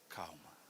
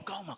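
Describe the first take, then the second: First: It is said slowly and calmly. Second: It is said hurriedly and agitated.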